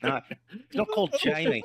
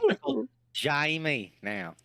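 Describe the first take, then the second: First: Laughing mock Australian twang; Australian accent. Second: Slow Kiwi vowels, Jamie as Shamie; New Zealand accent. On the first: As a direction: say it like a cheeky Aussie. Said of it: "That's Australian". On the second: Pretend. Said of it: "get into the New Zealand accent".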